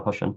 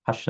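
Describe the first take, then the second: First: حش with a short u, like hush; damma on ha. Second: حش with a short a, like hash; fatha on ha. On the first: Teacher showing the other variant, short u in حش. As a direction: round the vowel of حش to u. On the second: Teacher showing one of two variants, short a in حش. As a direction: open the vowel of حش to a. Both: Shown as a demonstration. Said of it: "بضم الحاء وفتحها".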